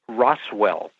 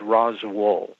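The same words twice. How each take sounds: First: The second syllable sounds like 'well'. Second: The second syllable sounds like 'wool'. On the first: This is how visitors from elsewhere say it. The speaker calls it wrong. "Most of us outsiders pronounce it" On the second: This is how the locals say it. The speaker calls it right. "the way it is pronounced is"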